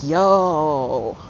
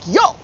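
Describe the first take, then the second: First: It sounds delighted and impressed. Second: It sounds indignant, like a complaint.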